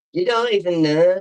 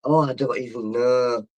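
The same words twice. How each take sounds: First: Higher, louder teasing "You don't even know"; playful mimicry of her own line; mocking echo. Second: Said in the usual way. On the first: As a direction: throw the words back teasingly.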